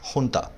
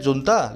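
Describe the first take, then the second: First: The word begins with an 'h' sound. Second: The word begins with a 'j' sound. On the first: This is how the word is actually spoken. "लेकिन बोला जाता है हुंता" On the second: This is how the word is spelled. "ये लिखा जाता है जुंता"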